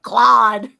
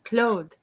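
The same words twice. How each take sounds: First: The name sounds like the English word clod. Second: The name is said with a French closed o vowel. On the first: The speaker calls it wrong. "that's like a chunk of dirt" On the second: The speaker calls it right. "romantic pronunciation of his name ... sexy French name"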